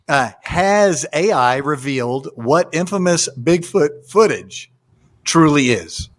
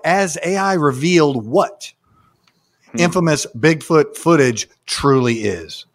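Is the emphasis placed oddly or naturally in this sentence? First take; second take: naturally; oddly. First: The emphasis falls where it normally would. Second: The emphasis falls on odd, unexpected words. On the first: The speaker calls it right. "That I understood" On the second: The speaker calls it wrong. "Putting the emphasis in the weirdest places"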